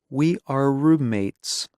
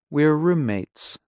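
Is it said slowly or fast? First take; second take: slowly; fast. First: It is said slowly and carefully. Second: It is said fast and reduced.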